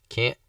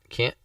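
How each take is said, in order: No difference in how they are said.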